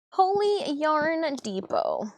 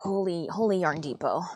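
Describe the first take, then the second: First: High, slow, drawn-out wonder; amazed exclamation. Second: Said in the usual way. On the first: Real, not acted. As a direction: savor each word in awe.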